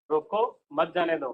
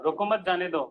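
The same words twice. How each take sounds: First: "रोको" alone, a break, then "मत जाने दो" together; pause after रोको. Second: "रोको मत" run together, then "जाने दो"; pause after मत. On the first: Teacher showing the class the stop-him meaning, pause after "रोको". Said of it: "नहीं जाने दे". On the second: Teacher showing the class the let-him-go meaning, "रोको मत" as one phrase. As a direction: join "मत" to "रोको", slight break before "जाने दो". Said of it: "जाने दो उसको". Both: Shown as a demonstration.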